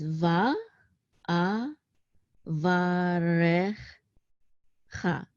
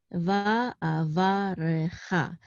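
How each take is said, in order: First: "Va, A, Va, Re, Cha" as separate syllables with long pauses. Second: "Va, A, Va, Re, Cha" run together as one careful word; syllables joined up. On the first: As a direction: sound out "Va, A, Va, Re, Cha" slowly, piece by piece. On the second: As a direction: blend "Va, A, Va, Re, Cha" with hardly a break. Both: Shown as a demonstration. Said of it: "I'm just gonna read it".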